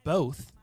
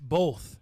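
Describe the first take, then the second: First: There is no L sound before the th. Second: An L sound comes before the th. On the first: "I don't say both" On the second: "B O L T H"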